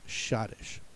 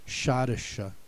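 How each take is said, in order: First: The word ends without an extra vowel sound. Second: The word ends with an extra vowel sound. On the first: "it has one and only one pronunciation" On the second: "E at the end that they would have said"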